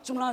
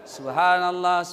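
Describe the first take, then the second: First: It is said fast and slurred. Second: It is said slowly and clearly.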